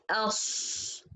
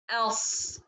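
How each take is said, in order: First: "else" with a long s shaped by the lips; lip-made ص mistake. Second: "Else" with a heavy s from the back of the tongue. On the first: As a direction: show the faulty "else", lips working on the s. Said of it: "not in the lips". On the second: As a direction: keep lips relaxed on a heavy "Else". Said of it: "it depends in the tongue from the back". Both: Shown as a demonstration.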